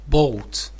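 It is said with a British vowel. "But British is bolt"

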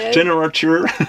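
The name is said with an English accent. "Il est pas mal ton accent anglais"

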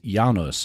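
The name is pronounced the Polish way. "The Polish pronunciation of the family name is"

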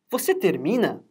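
It is said with question intonation. It asks whether the listener finishes. "a gente muda apenas a entonação"

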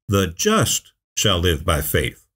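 The word just is stressed.

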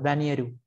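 The name ends in a 'ru' syllable.

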